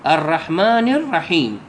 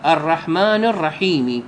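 First: "الرحيم" ending on a silent m; teacher shows "الرحيم" closed with a silent final m; stopping on a silent letter. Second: "الرحيمِ" with the final kasra voiced before the pause; teacher shows "الرحيم" ending on an i vowel, then stopping. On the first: Reciting to students, ending on a silent letter. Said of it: "تقرأه هكذا". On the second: Showing students the wrong pausing, on a vowel. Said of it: "بالكسر". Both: Shown as a demonstration.

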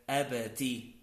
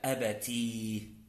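First: "أبتي" said abati, ending in i; "أبتي" with kasra on the ta. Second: "أبتي" with a long final ee; stretched, lower "أبتي" ending on a ya; ta plus ya. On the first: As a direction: end "أبتي" on a plain -ti. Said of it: "بالتاء المكسورة". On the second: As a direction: slowly hold "أبتي" as a-ba-teee. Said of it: "بالتاء والياء". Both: Shown as a demonstration.

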